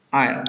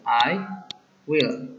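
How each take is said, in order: First: "I'll" run together as a single syllable; "I'll" as one short word, no gap. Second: "I", then "will", as two distinct words; "I will" uncontracted, a gap between the words; two separate syllables. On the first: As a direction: contract it to one beat, "I'll". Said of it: "kalau kamu buat contradiction". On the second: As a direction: say "I" and "will" apart, two beats. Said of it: "I will becomes two syllable". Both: Shown as a demonstration.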